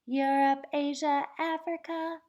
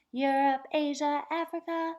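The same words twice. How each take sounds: The two takes are said the same way.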